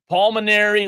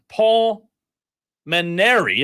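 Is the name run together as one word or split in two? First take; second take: one word; two words. First: The name is run together as one word. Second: There is a gap between the two names. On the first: The speaker calls it wrong. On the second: The speaker calls it right.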